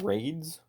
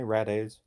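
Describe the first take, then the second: First: The name is said as a single syllable. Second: The name is said with several syllables. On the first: The speaker calls it wrong. "Some people were pronouncing it Raids" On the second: The speaker calls it right. "it's definitely Radaze"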